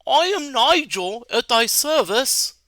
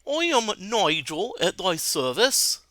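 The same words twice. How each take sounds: First: Higher, slow, grand wizard greeting; noble wizard. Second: Put-on slow posh British accent greeting. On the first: Acted. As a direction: greet like a courtly mage bowing. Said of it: "You meet a noble wizard". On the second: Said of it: "I'm gonna do Nigel with a British accent".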